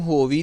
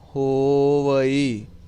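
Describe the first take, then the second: First: The word ends in a short 'vi' sound. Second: The word ends in a 'va-ee' sound. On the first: The speaker calls it wrong. "ਇਹਨੂੰ ਹੋਵੀ ਨਹੀਂ ਕਹਿਣਾ" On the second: The speaker calls it right. "ਸੋ ਧਿਆਨ ਦੇਣਾ, ਹੋਵਈ ਹੋਵਈ"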